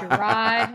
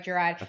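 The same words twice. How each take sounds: First: Grand announcer-style name reveal; hype introduction. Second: Said in the usual way. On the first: Acted. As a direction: present him like royalty. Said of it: "and the king himself". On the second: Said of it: "That's right".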